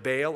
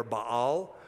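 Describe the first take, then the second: First: "Baal" as BAYL; one-syllable variant. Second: "Baal" as bah-AHL; two-syllable variant. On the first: Teacher recalling Old Testament worship, "Baal" pronounced BAYL. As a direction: say "Baal" to rhyme with "pale". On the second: Teacher recalling Old Testament worship, "Baal" pronounced bah-AHL. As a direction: say "Baal" with two ah vowels, stressed last. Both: Shown as a demonstration. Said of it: "Baal or Baal".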